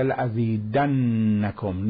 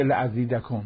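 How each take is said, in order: First: لأزیدنکم drawn out very slowly, the doubled نّ held and leaned on; stressed doubled nun. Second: Said in the usual way. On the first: Shown as a demonstration. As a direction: hold the نّ in لأزیدنکم to show emphasis. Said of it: "نونی که تشدید داره مال تأکیده". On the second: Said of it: "نون ... مشدد".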